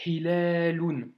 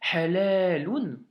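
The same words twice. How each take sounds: First: Hilalun slow with a soft breathy H; correct soft H. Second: Halalun louder and slow, the vowel changed to a; wrong pronunciation. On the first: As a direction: model the right soft H in Hilalun. (Hilalun avec le H doux correct) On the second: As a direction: show the mistake Halalun. (mauvaise prononciation Halalun, plus fort) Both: Shown as a demonstration. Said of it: "si tu le prononces mal".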